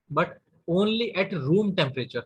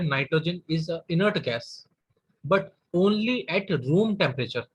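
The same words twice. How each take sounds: First: Slow, stressed repeat of the key phrase; slow down on the key point; slow emphasis. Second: Stretched-out dictating voice; slow dictation. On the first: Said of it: "repeats key phrase slowly". (धीमे ज़ोर देकर) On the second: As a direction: dictate it slowly, word by word. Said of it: "teacher dictating key point". (धीमे लिखवाते हुए) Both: Shown as a demonstration.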